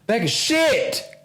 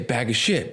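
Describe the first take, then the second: First: The phrase is screamed very loudly. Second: The phrase is said at a normal, calm volume. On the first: "it just screamed it" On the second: "it didn't say bag of shit"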